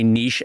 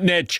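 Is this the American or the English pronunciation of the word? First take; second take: English; American. First: It is pronounced the English and French way. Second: It is pronounced the American way. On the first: "the English and the French say niche" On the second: "Americans are like, out with that, I'm calling it niche"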